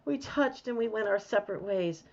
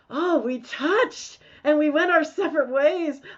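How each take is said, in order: First: It is said in a sad tone. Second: It is said in a happy tone.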